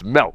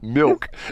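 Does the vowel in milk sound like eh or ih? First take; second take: eh; ih. First: The vowel sounds like the eh in set. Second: The vowel sounds like the ih in sit. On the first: The speaker calls it right. "It's milk, right?" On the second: The speaker calls it wrong. "It's not milk"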